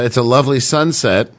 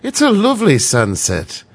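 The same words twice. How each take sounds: First: It is said in the speaker's plain accent. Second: It is said in an Irish accent.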